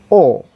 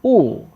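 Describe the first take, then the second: First: O said as a short, quick u sound; short vowel. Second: O drawn out as a long oo; long oo sound for O; wrong long oo. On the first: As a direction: keep O brief, not a long oo. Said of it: "Sound is O". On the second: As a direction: stretch O into a full oo. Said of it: "not like O". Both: Shown as a demonstration.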